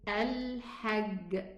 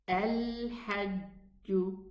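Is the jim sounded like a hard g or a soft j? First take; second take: hard g; soft j. First: The jim sounds like a hard g, Egyptian style. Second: The jim sounds like a soft j, classical style.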